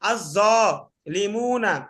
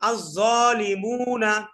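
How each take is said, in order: First: The syllable 'li' joins the syllable after it. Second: The syllable 'li' joins the syllable before it. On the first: The speaker calls it wrong. "এটা কেমন জানি একটু আলাদা আলাদা হয়ে যাচ্ছে" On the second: The speaker calls it right. "দেখেন এখানে একটা তাল চলে আসতেছে"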